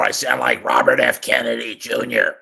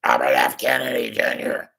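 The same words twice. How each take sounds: First: Said in the usual way. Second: Lightly strained, a touch of a rasp; a hint of a strained old politician; quick off-the-cuff mimic, only lightly voiced; Robert F. Kennedy Junior impression. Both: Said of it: "was a pretty good impression".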